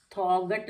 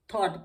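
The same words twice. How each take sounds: First: थॉगट with the g sounded; wrong pronunciation. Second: थॉट with silent gh; right pronunciation. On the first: Teacher showing the wrong reading थॉगट with sounded g. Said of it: "थॉगट नहीं पढ़ेंगे". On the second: Teacher giving the right reading थॉट with silent gh. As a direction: say थॉट short, no g. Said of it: "थॉट पढ़ेंगे". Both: Shown as a demonstration.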